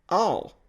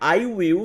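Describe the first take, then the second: First: The words merge into one short syllable. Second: Both words are said fully and separately. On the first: "vira all" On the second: "I will vira"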